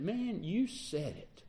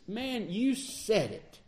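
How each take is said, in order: First: Quiet, slow, offhand "Man, you said it"; dismissive reply. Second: Higher, slow, drawn-out "Man, you said it"; wholehearted sympathetic agreement; emphatic agreement. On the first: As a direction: toss it off softly, like you don't buy it. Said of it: "does that mean that he's disagreeing with me?". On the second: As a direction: lean into it, fully agreeing. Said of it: "agreeing emphatically with me?". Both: Shown as a demonstration.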